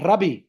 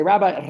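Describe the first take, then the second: First: "Rabbi" said RUH-bee, short flat first vowel and short ee end; "Rabbi" as ruh-bee, the way the Afrikaner guest says it; mispronounced Rabbi. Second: Said in the usual way. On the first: Shown as a demonstration. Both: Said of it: "they can't say rabbi".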